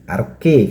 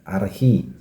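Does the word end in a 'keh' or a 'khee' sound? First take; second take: keh; khee. First: The word ends with a hard 'keh' sound. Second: The word ends with a breathy 'khee' sound. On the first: This is how someone else said it. The speaker calls it wrong. "arke katanya" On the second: This is how the translator says it. The speaker calls it right. "pronounsnya adalah archi, bukan arke"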